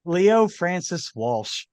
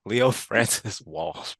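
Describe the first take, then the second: First: Slow, hammed-up fake Irish brogue; mock Irish, drawn out; a hint of a bad Irish accent. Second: Slow, lightly put-on Irish accent; a touch of fake Irish; mock Irish accent. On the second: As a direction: imitate a bad Irish brogue. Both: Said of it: "With a very, very bad Irish accent".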